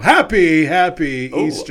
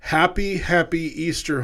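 First: It is said cheerfully, with lively happiness. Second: It is read flatly, without much happiness. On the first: The speaker calls it right. "I like that. That was good" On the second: The speaker calls it wrong. "it probably doesn't sound very conversational"

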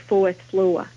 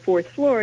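First: The R sounds are dropped. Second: The R sounds are pronounced. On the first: "you would say fourth floor" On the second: "Instead of fourth floor"

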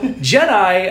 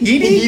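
First: It begins with a J sound. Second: It begins with a Y sound.

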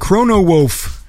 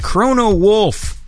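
First: The L in Wolf is left out. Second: The L in Wolf is clearly pronounced. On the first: The speaker calls it wrong. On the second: The speaker calls it right.

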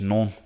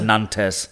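First: The word sounds like 'non', with no final consonant. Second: The word is read out as it is spelled. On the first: "I think it's just non" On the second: "It's written as Nantes"

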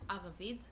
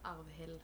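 First: The name is said without an L sound. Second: The name is said with an L sound. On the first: The speaker calls it right. "Arvid, not Arvid" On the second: The speaker calls it wrong. "not Arvid ... there shouldn't be an L there"

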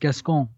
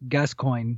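First: The name is pronounced in a French style. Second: The name is pronounced in an English style. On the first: The speaker calls it wrong. "but it's French, dog. Like, it should be Gascoigne" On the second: The speaker calls it right. "we found out the pronunciation is Gascoigne"

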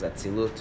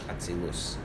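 First: The word ends with a t sound. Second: The word ends with an s sound. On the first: This is the form used in the translation. "if you're reading the English, it says Atzilut"

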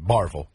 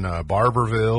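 First: The middle syllable 'ber' is skipped entirely. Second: The middle syllable 'ber' is fully pronounced. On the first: This is how locals say the name. "They skip through it" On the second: This is how outsiders say the name. "They don't say Barberville"

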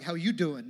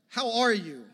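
First: It is said in a Joey from Friends voice. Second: It is said as a sincere, caring question.

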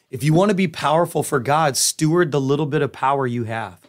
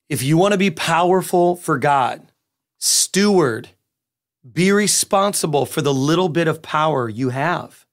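First: It is said at a normal, quicker pace. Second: It is said very slowly and deliberately.

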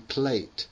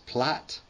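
First: The vowel sounds like the one in 'late'. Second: The vowel sounds like the one in 'cat'. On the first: The speaker calls it wrong. "it's not actually plate" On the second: The speaker calls it right. "it's plat"

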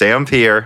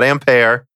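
First: The word is pronounced the English way. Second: The word is pronounced the French way. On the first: The speaker calls it right. "the English spelling of the unit Ampere ... does not have the accent mark" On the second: The speaker calls it wrong. "It's not Ampere"

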